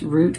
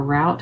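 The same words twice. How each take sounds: First: First route rhymes with "boot"; route as "root". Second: Second route rhymes with "out"; route as "rowt". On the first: Tarot reader unsure of the word, route said as "root". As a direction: say route with a long oo. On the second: Tarot reader giving the alternative, route said as "rowt". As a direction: say route with an ow diphthong. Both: Shown as a demonstration. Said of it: "however you pronounce that".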